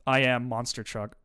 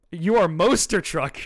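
First: Said in the usual way. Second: Louder, slow, giggling delivery; laughing reply. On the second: Acted. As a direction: crack up while saying it. [name] replies amused.

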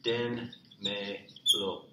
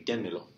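First: Very slow "Dénmelo" with gaps; teacher's slow word breakdown; syllable by syllable. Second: Said in the usual way. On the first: Shown as a demonstration. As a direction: sound out "Dénmelo" one drawn-out syllable at a time. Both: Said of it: "You all give it to me".

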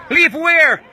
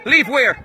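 First: Indignant shout. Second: Said in the usual way. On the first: Real, not acted. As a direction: throw the question back at them, yelling. Told to leave the premises.

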